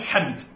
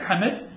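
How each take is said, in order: First: The name is said as one syllable. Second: The name is said as two syllables. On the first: The speaker calls it right. "اسمه حمد" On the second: The speaker calls it wrong. "ليس حمد"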